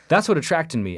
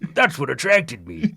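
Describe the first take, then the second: First: It is said in a natural speaking voice. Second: It is said in a put-on character voice. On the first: "just do it normal" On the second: "do the voice, do mister Krabs"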